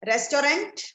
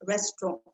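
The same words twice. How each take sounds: First: Restaurant fully sounded with a hard final T; wrong pronunciation. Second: Restaurant with a nearly silent final NT; correct pronunciation. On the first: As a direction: say restaurant as res-to-rant, rising like a question. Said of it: "No, the correct pronunciation". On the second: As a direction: say restaurant as res-tro, French-style. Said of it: "N T in the end is a little silent". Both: Shown as a demonstration.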